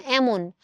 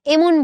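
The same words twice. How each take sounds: First: এমন as "æmon", opening vowel wide. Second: এমন as "emon", with a close "e"; the rejected reading of এমন, pure "e"; close "e" vowel. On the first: Teacher showing what students really say, এমন with open "æ". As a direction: begin এমন with "æ" as in "cat". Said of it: "কি বলছো?". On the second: Teacher showing what students don't say, এমন with close "e". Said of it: "এমন বলছো না". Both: Shown as a demonstration.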